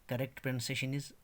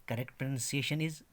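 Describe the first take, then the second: No difference in how they are said.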